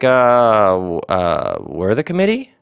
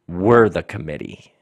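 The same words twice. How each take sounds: First: It is said like an uncertain question. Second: It is said in a grounded, certain way. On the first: The speaker is unsure of their authority. The speaker calls it wrong. "you don't say it like it's a question" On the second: The speaker calmly states their authority. The speaker calls it right. "It's like this convicted, grounded, sure and certain"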